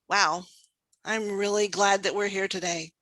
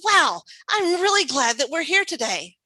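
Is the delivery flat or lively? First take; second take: flat; lively. First: It is said flatly with little pitch variation. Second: It is said lively with varied pitch. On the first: The listener would rather not hear more. The speaker calls it wrong. "the first one, you probably don't want to hear from me" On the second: The listener wants to hear more. The speaker calls it right. "when I use that kind of vocal variety"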